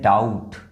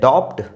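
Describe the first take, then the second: First: The b sound is silent before the t. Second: The b sound is pronounced before the t. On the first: The speaker calls it right. "बी को pronounce ही नहीं किया जा रहा है" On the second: The speaker calls it wrong. "डॉप्ट नहीं है"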